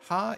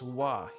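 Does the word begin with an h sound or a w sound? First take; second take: h sound; w sound. First: The word begins with an h sound. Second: The word begins with a w sound. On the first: The character is read on its own. "that is actually ha" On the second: The character is used as the topic particle. "Ha is pronounced wa here"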